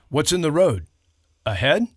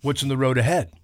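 First: There is a break before 'ahead'. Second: It flows without a break before 'ahead'.

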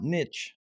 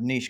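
First: It is said the American way. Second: It is said the Canadian, French-style way.

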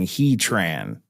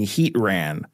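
First: The ending sounds like the word 'train'. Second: The ending does not sound like 'train'. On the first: The speaker calls it right. "when you could have been saying Heatran" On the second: The speaker calls it wrong. "you were saying Heatran"

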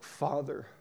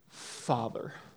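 First: The voice stays steady on the word. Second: The voice cracks and breaks on the word.

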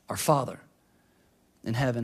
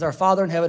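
First: It is said slowly. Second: It is said fast.

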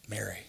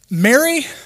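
First: The name is said with mild, light agitation. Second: The name is said with strong, exasperated frustration. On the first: "Maybe that was the tone. Mild agitation" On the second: "Or maybe it was severe frustration. Maybe it was this"

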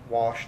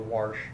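First: The word has the standard vowel sound. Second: The word has a changed regional vowel sound. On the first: The speaker calls it right. "I don't get how people change wash to wash" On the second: The speaker calls it wrong. "change the vowel sounds"

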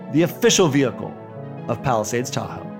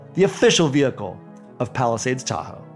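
Both takes have the same delivery.

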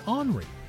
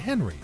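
First: The name starts without an H sound. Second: The name starts with an H sound. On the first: "which doesn't begin with an H" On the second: "some people are still pronouncing it Henry"

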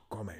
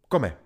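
First: It is said as a plain, neutral statement. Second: It is said as a sharp, forceful order. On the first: Someone else eats. "Jednoduše je to kome" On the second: The listener is told to eat. "já z toho udělám rozkaz jenom, že to takhle vezmu jako kome"

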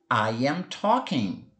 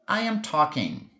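First: It is said slowly, word by word. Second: It is said at a natural, connected pace.

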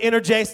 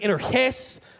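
First: The word is said with an English Texan pronunciation. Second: The word is said with a Greek pronunciation. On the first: "for us East Texans, we're going to go with" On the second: "if you pronounce it right, it would really be"

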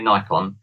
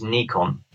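First: The first syllable sounds like 'nigh'. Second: The first syllable sounds like 'knee'. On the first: This is how Americans say it. The speaker calls it wrong. "Americans say Nikon" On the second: This is the original, correct way to say it. The speaker calls it right. "The actual correct pronunciation is Nikon"

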